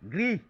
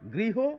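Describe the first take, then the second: First: The word ends on a bare consonant. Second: The word ends with a final o-like vowel. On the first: The speaker calls it wrong. "এই রকম উচ্চারণ না করে" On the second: The speaker calls it right. "ও এর মতো উচ্চারণকেই অকারান্ত উচ্চারণ বলে"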